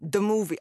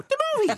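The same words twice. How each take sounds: First: American gangster take on the phrase. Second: Very high, squeaky mock-Irish; Irish accent. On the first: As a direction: say it like a mob tough guy. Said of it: "I wanna go kind of gangster with it". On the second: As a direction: shriek it sky-high in a comic Irish accent. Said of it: "because I'm half Irish". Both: Shown as a demonstration.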